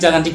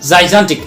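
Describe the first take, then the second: First: The first syllable has a short 'ja' sound. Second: The first syllable has a 'jai' diphthong sound. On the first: The speaker calls it wrong. "আমি খালি জাগান্টিক জাগান্টিক কওঁ" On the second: The speaker calls it right. "So জাইজান্টিক"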